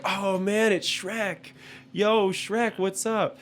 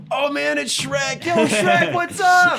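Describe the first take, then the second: First: High-pitched mock-excited drive-through worker; excited greeting. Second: Very high, loud imitation of a thrilled worker; excited yelling. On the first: Imitating Burger King staff greeting the cutout, high and excited. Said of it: "they were like". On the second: Imitating drive-through guy spotting Shrek, hyped-up yell. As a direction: holler it like an overexcited fan, voice way up. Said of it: "the guy's just like".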